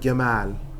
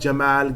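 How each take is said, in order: First: It begins with an Egyptian hard 'g' sound. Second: It begins with a standard Arabic 'j' sound.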